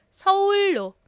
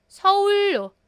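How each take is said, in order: No difference in how they are said.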